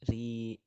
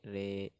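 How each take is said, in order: First: The vowel is a straight, clear i sound. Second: The vowel is slanted toward an e sound. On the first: The speaker calls it right. "luruskan kasrohnya" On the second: The speaker calls it wrong. "Bukan re"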